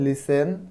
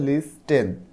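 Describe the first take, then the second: First: The t sound is left silent. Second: The t sound is clearly pronounced. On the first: The speaker calls it right. "টি এর উচ্চারণটা হয় না" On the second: The speaker calls it wrong. "তুমি যদি টি এর উচ্চারণটা করো তখন হবে"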